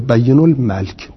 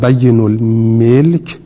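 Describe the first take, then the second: First: The m is followed by an a vowel. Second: The m is followed by an i vowel. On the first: "و فتحا" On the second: "به کسر الميم"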